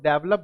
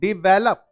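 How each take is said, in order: First: The first syllable sounds like 'deh'. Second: The first syllable sounds like 'dih'. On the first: The speaker calls it wrong. "बहुत सारे लोग डेवलप बोलते हैं। नहीं, गलत उच्चारण है" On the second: The speaker calls it right. "सही उच्चारण करो, डिवेलप"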